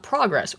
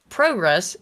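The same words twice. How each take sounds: First: The first syllable sounds like 'prah' with 'ah'. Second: The first syllable sounds like 'pro' with 'oh'. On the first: The speaker calls it wrong. "and not progress" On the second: The speaker calls it right. "if it starts with P R O, it's pro"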